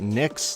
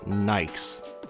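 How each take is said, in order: First: The vowel is short, as in 'kick'. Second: The vowel is long, as in 'bike'. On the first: "do they pronounce it Nix, like I do" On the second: "or do they pronounce it like Nikes?"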